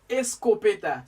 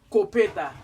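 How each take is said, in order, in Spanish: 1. La sílaba inicial 'es' se pronuncia claramente. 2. Se omite la sílaba inicial 'es'. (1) "pero es escopeta" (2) "Hay gente que pronuncia esa palabra copeta, pero no es copeta"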